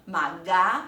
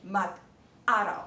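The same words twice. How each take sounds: First: "maga" run together as ma-ga; wrong linking. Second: "mag-aral" with a break after "mag"; separated syllables. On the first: Teacher showing what not to say, "maga" joined up. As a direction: slide g straight into a in "maga". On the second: Teacher correcting for learners, "mag-aral" split at the hyphen. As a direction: stop on g, then start "aral" afresh. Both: Shown as a demonstration. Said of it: "之间不要连起来哦".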